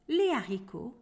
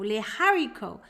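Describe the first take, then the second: First: The h at the start is silent. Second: The h at the start is pronounced. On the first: The speaker calls it right. "The letter H is silent in French" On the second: The speaker calls it wrong. "we do not say"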